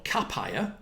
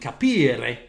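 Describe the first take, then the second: First: The word is said with an English-style pronunciation. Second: The word is said with an Italian pronunciation. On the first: "which is a bad, on my behalf, pronunciation" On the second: "the Italian capire"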